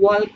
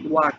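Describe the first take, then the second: First: An L sound is pronounced in the word. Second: No L sound is pronounced in the word. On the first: The speaker calls it wrong. "এখানে ওয়াল্ক নাই" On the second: The speaker calls it right. "W A কে অলা কে উচ্চারণ হইব"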